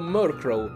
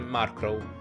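First: The first syllable sounds like 'murk'. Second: The first syllable sounds like 'mark'. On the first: "andrebbe detto Murkrow, perché il suo nome proviene da Murk" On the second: "lo continuo a chiamare Markrow"

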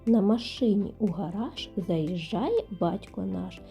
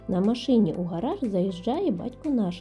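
First: It is spoken at a slower, normal pace. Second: It is spoken at a faster pace.

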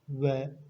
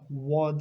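First: The vowel is a thin e sound. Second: The vowel is an open, thick a sound. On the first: The speaker calls it right. "Ve dudaklar uzun" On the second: The speaker calls it wrong. "Va değil"

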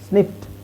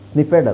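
First: The ending is a short 't' with no extra syllable. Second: The ending is said as a separate 'ed' syllable. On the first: The speaker calls it right. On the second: The speaker calls it wrong. "ಸ್ನಿಫೆಡ್ ಅಲ್ಲ"

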